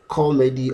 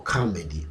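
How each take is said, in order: First: "comedy" as KAW-medy, rounded first vowel; "co" pronunciation. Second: "comedy" as KAH-medy, open first vowel; "ka" pronunciation. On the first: Teacher recapping the singular, first variant with "co". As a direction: begin "comedy" on a stressed rounded "co". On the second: Teacher recapping the singular, second variant with "ka". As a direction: begin "comedy" on a stressed open "ka". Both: Shown as a demonstration. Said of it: "the singular form of comedy".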